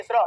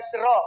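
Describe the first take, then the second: First: Said in the usual way. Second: "श्र" drawn out, sibilant then rolled r; correct pronunciation. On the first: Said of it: "जल्दबाजी में मत बोलिए". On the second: Shown as a demonstration. Teacher warning against haste, "श्र" carefully stretched. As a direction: say "श्र" unhurriedly, both consonants audible. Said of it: "इसका pronunciation होता है".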